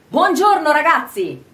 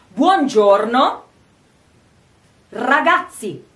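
First: It is said at a natural conversational pace. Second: It is said slowly and sounds stiff. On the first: "si arriva a una pronuncia naturale" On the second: "Si inizia lentamente e suona tantissimo impostato"

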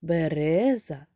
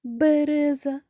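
First: The stress is on the second syllable. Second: The stress is on the first syllable. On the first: "Другий" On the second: "Перший"

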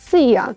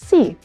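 First: The word ends with an added 'a' sound. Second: The word ends cleanly on the 'ee' sound. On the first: The speaker calls it wrong. "кажуть I love sea" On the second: The speaker calls it right. "звука А в кінці просто немає"

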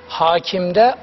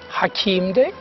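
First: The first vowel, a, is long. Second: The second vowel, i, is long. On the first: It means ruler or judge. "Hakimde A üzerinde şapka" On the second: It means wise. "Hakimde İ üzerinde"

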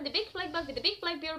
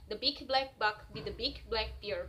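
First: It is said at a faster pace. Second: It is said at a slower pace.

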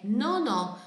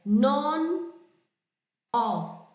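First: The consonant runs straight into the vowel. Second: The two words are said separately with a break. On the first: The speaker calls it right. "é nonó" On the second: The speaker calls it wrong. "Não é. Non, ó, não"

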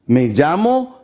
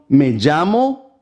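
The two takes are said the same way.

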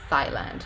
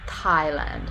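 First: It begins with a hissing 'th' sound as in 'thin'. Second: It begins with a tongue-on-teeth 't' and a puff of air. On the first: "he produced a voiceless dental fricative instead" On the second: "that is a dental stop. So it's not a dental fricative, it's a dental stop, and it's aspirated"

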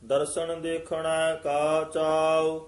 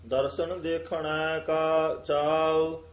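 No difference in how they are said.

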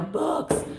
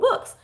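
First: The word sounds disgusted and dismissive. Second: The word sounds delighted and excited. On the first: Books are seen as worthless junk. The speaker calls it wrong. "we kind of like, ugh, you know" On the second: Books are seen as a great find. The speaker calls it right. "if you're a book person, ... You were like, ooh"

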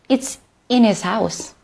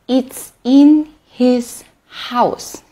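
First: The h sound in his is dropped. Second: The h sound in his is pronounced.

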